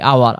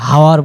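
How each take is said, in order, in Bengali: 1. শব্দটি একটি স্বরধ্বনি দিয়ে শুরু, কোনো 'h' নেই। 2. শব্দটি একটি শোনা যায় এমন 'h' ধ্বনি দিয়ে শুরু। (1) "যেমন হলো আমরা আওয়ার বলি" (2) "হাওয়ার বলি না"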